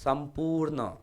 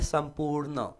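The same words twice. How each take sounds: The two takes are said the same way.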